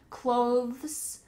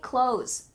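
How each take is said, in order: First: A clear 'th' sound comes before the final s. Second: There is no 'th' sound, like 'close'. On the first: "try to add the T H in here" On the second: "it just sounds like clothes"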